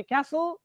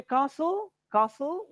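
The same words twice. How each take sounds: First: CASTLE as "kass-ul", silent T; American pronunciation. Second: CASTLE as "kah-sul", silent T; British pronunciation. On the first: Teacher showing students American English, front "a" in CASTLE. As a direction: model CASTLE with the American "a" of cat. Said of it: "American English". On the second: Teacher showing students British English, long "ah" in CASTLE. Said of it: "we are using British English". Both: Shown as a demonstration.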